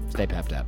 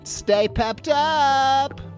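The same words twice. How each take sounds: First: It is said with a natural intonation. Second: It is said with an odd intonation.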